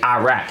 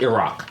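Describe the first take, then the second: First: The name has an English-style pronunciation. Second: The name has a pronunciation closer to native. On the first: No effort is made toward the original pronunciation. The speaker calls it wrong. "he doesn't say Iraq" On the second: It shows respect for the country's own pronunciation. The speaker calls it right. "he says Iraq"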